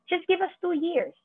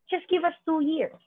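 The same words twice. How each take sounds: The two takes are said the same way.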